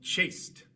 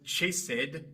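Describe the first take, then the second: First: The ending adds no extra syllable. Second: The ending is said as an extra syllable. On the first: The speaker calls it right. "sino chased" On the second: The speaker calls it wrong. "No es chased"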